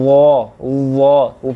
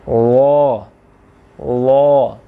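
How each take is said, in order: First: The tongue tip presses hard, adding a z buzz. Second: The tongue tip touches lightly, with no z buzz. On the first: The speaker calls it wrong. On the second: The speaker calls it right.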